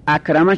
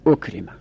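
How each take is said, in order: First: Said in the usual way. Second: اکرمه said as "ukrima"; passive vowelling. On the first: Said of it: "اونم همینطوری". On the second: Shown as a demonstration. Teacher showing the passive of akrama, vowelled u-i. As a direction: say اکرمه with u first, i before last. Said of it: "اولش مضموم".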